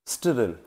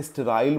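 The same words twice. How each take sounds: First: स्टेरिल with a short i, ste-ril; pronounced sterile as steril. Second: स्टेराइल with a long ai, ste-rail; the other pronunciation. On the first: Teacher giving his own steril reading. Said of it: "स्टेरिल मैंने तो यही पढ़ा है". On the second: Teacher showing how some people say sterile. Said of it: "कुछ लोग इसे स्टेराइल बोलते हैं". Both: Shown as a demonstration.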